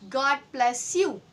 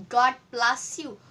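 The two takes are said the same way.

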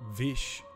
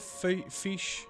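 First: The name begins with a v sound. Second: The name begins with an f sound. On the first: "But it's Vish, I believe" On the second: "Or fish, depending on how you want to pronounce that"

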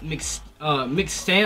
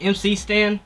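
First: MC is blended into one syllable, like 'Mick'. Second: MC is spoken as two separate letters. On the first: "He pronounced it [name]" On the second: "I thought it was MC Stan"

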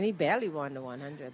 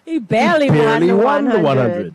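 First: It is said quietly, under the breath. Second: It is said loudly and openly. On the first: "Don't whisper that in your breath" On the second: "Say that louder"

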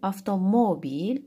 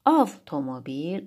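First: The stress is on the third syllable. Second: The stress is on the first syllable.

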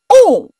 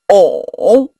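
First: The pitch falls sharply from high to low. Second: The pitch dips low then rises. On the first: "第四声" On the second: "第三声"

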